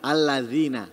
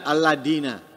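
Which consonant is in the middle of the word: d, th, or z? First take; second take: th; d. First: The middle consonant is a soft th sound. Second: The middle consonant is a d sound. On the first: The speaker calls it right. "mestinya kan alladzina" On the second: The speaker calls it wrong. "diganti dal"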